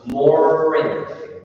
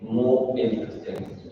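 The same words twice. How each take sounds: First: The r is held and linked to the next vowel. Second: The r is not linked to the next vowel. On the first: The speaker calls it right. "Try to, to hold the run. So more interesting" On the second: The speaker calls it wrong. "you are saying more interesting"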